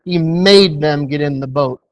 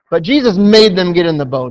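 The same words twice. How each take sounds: First: He "made" them, the word "made" weighted; stress on made. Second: "Jesus" hit loud and first; loud "Jesus", then "made" carried through; stress on Jesus. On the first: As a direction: lean hard on "made". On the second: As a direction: open with a strong "Jesus". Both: Shown as a demonstration. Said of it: "There, there's a very strong word in that verse".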